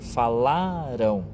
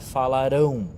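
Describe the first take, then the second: First: The stress is on the middle syllable. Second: The stress is on the last syllable. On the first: The action happened in the past. "Aqui é passado. Então é o meio da palavra" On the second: The action will happen in the future. "Quando a gente acentua o finalzinho da palavra é futuro"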